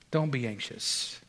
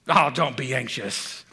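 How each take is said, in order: First: It is said in a compassionate tone. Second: It is said in a condescending tone.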